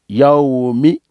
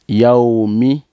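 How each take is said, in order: Both takes have the same delivery.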